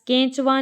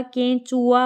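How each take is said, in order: First: "केंचुआ" squeezed to "kench-va"; wrong pronunciation. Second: "केंचुआ" with a full u, "ken-chu-aa"; correct pronunciation. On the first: Teacher showing students the mistake, "केंचुआ" said as "kench-va". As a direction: say "केंचुआ" with va for the u-a ending. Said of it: "नहीं होता". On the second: Teacher correcting students, "केंचुआ" said fully as "ken-chu-aa". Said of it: "होता है या केंचुआ". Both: Shown as a demonstration.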